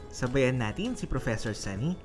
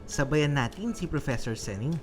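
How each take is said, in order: No difference in how they are said.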